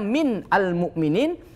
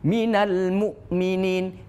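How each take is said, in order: First: Min ends in a bare n sound. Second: Min takes an added a vowel, joining al. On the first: This is the underlying form before the rule applies. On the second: This is the form actually read. "min ini dihidupkan dengan fathah"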